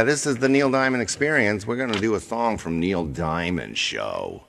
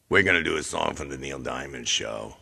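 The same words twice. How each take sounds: First: Funny announcer voice. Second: Different funny voice. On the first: Host introducing the [name] show, put-on announcer voice. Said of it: "Why does he talk like that?". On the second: Host repeating the show intro, lower put-on voice. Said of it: "all these different voices come up". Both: Pretend.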